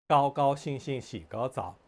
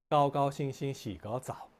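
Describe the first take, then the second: Both takes have the same delivery.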